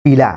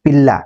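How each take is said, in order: First: पीला with a single short l; short consonant. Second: पिल्ला with a long double l; lengthened consonant. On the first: Teacher's example of giving water, पीला with short l. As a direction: say पीला with a light, unheld l. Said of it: "उच्चारण आप देख रहे हैं कि अलग". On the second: Teacher naming puppies to show length, पिल्ला with lengthened l. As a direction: hold the l in पिल्ला. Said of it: "ये दीर्घता के कारण है". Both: Shown as a demonstration.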